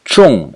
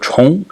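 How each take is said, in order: First: The syllable is said with the fourth tone. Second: The syllable is said with the second tone. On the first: It means heavy or important. "in the fourth tone" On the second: It means to repeat. "in the second tone"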